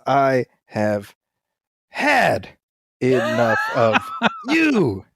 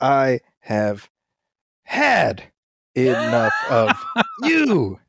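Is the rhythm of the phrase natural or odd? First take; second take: odd; odd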